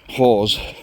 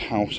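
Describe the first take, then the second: First: The word is said unlike English 'house'. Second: The word is said like English 'house'. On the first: The speaker calls it right. "I think it's Hause" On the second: The speaker calls it wrong. "I don't think it's house"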